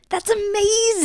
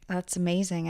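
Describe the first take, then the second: First: It is said with more enthusiasm. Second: It is said with little enthusiasm.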